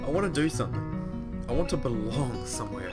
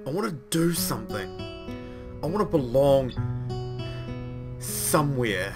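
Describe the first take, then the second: First: It is said flatly, with little passion. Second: It is said with strong passion and energy. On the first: The speaker calls it wrong. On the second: The speaker calls it right.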